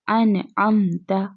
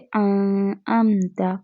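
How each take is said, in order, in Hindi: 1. n साफ़ कहा गया है, नाक में खींचे बिना। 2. n छुपा हुआ है और नाक में खिंचा हुआ है। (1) "नून साकिन की आवाज़ वाज़े निकली" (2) "अगर यहाँ पर गुन्ना होता ... आवाज़ को थोड़ी देर के लिए नाक में छुपाते"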